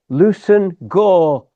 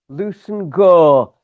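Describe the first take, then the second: First: The name is said shortened, as Lewson Gore. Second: The name is said shortened, as Lewson Gore.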